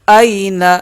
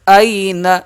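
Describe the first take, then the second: Both takes have the same delivery.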